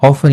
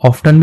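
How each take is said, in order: First: The word is said without a t sound. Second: The word is said with a t sound. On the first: "ऑफन और ऑफ्टन दोनों ही सही माने जाते हैं" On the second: "इसको लोग ऑफ्टन भी पढ़ते हैं, वो भी सही है उच्चारण"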